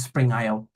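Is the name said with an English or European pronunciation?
English. The letters are said the English way.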